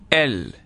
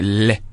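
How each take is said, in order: First: The letter is said by its full name. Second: Only the letter's short sound is said. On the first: "ça, c'est la lettre" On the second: "mais les sons, c'est les"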